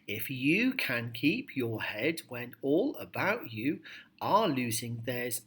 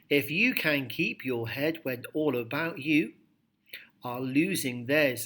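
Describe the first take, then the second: First: It flows on without deliberate pauses. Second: It pauses deliberately at the punctuation. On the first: "make your voice rise and fall as you read the poem aloud" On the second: "reading the punctuation and show that you are personally controlling the pace"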